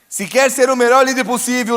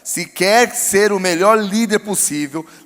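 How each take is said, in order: First: It is spoken at a normal, quicker pace. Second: It is spoken more slowly and deliberately.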